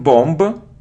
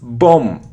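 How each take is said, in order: First: The final b sound is pronounced. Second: The final b sound is silent. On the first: The speaker calls it wrong. "It isn't bomb" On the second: The speaker calls it right. "It's a short sound o, bomb. We don't pronounce b"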